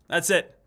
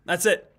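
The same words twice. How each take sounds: The two takes are said the same way.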